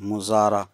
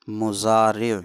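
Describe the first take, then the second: First: The word ends with an 'a' vowel. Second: The word ends with an 'e' vowel. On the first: The speaker calls it wrong. "ज़्यादातर तलबा मुज़ारा रा पे ज़बर बोलते हैं" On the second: The speaker calls it right. "मुज़ारे सही लफ्ज़"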